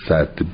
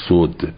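First: The first vowel is an a sound. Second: The first vowel is a u sound. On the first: It names the act of blocking. "صد بالفت مصدره" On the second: It names the barrier itself. "صد بالضم"

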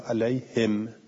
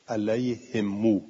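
First: The word ends on a silent, vowelless m. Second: The final m is followed by a long u. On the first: This is the reading of the other reciters. "به سکون المیم، مثلا میگه علیهم" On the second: This is the Hijazi reading. "قالو اینجوری میگن"

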